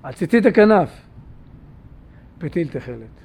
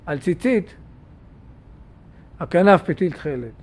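First: The break comes right after the word hakanaf. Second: The break comes right after the word tzitzit. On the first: Put a blue thread on the corner's fringe. The speaker calls it right. "מעריך תרחה" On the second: The fringe is separate from the corner's blue thread. The speaker calls it wrong. "מפסיק"

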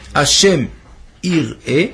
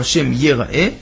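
First: The second word starts with an 'i' vowel, yir'eh. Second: The second word starts with an 'e' vowel, yera'eh. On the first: God sees the person. "יראה היוד בחיריק" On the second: God is seen by the person. "ויראה היוד בצרה"

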